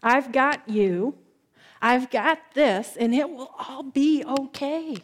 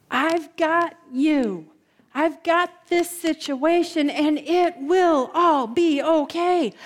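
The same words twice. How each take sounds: First: Slow, calm comforting; gentle reassurance. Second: "got you" slow and firmly weighted; deliberate, word-by-word promise, pitched up on "got"; emphatic reassurance. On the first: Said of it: "when Jesus whispers your name and says". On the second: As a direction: stress each word of "will all be okay". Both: Acted.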